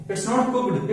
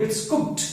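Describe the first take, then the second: First: "cooked" said with a full d ending; the mistaken full "cooked"; wrong cooked. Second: "cooked" ending in a clipped k-t; half k then t in "cooked"; correct cooked. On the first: Teacher to class, showing the wrong "cooked". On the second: Teacher to class, modelling the correct "cooked". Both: Shown as a demonstration.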